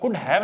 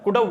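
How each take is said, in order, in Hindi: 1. शब्द have पूरा बोला जाता है। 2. शब्द have घिसा हुआ और जुड़ा हुआ बोला जाता है। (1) "अब कुड हैव नहीं बोल रहा ना" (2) "कुड हाउ बोल रहा हूं मैं"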